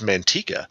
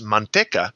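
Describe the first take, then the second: First: It is said with an American English pronunciation. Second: It is said with a Spanish pronunciation. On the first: The speaker calls it wrong. "the Californian pronunciation of the town" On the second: The speaker calls it right. "the correct Spanish pronunciation"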